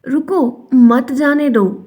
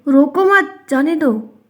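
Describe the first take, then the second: First: The pause comes right after the first word. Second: The pause comes after the second word.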